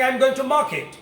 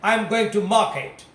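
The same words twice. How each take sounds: First: It is said with an American accent. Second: It is said with a British accent. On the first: "If you go to America, then you should be saying" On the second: "If you go to England, then you must say"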